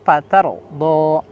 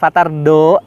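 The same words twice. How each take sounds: First: The r sound is heavy and full. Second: The r sound is light and thin. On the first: The speaker calls it right. "tapi fatar do" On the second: The speaker calls it wrong. "bukan fatar do"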